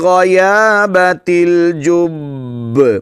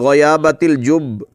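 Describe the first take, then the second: First: The final b is held, then released with a bounce. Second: The final b is short with no bounce. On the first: The speaker calls it right. "बा को पहले जमाओं के साथ, ठहराव के साथ और फिर क़लक़ला करेंगे" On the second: The speaker calls it wrong. "ऐसे पढ़ लेते हैं अहबाब"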